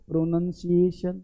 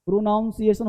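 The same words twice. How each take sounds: First: "प्रोनंसिएशन" as softer, lower pro-NUN-si-ay-shun; short nun in "प्रोनंसिएशन"; correct pronunciation. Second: "प्रोनाउंसिएशन" as pro-NOWN-si-ay-shun; wrong pronunciation. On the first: Teacher gives the real word, correct pronunciation. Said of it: "प्रोनाउंसिएशन होता ही नहीं". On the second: Teacher rejects the non-word, wrong pronunciation. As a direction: open "nown" inside "प्रोनाउंसिएशन". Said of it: "होता ही नहीं". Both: Shown as a demonstration.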